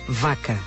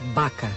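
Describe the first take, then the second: First: The word begins with a v sound. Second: The word begins with a b sound. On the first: This is how the word is written. "Português e galego, escrita" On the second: This is how Galician speakers say it. "Galego, pronúncia"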